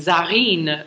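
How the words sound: The name is said with French pronunciation. "This almost sounds like a French name. Zarine is how I would pronounce it"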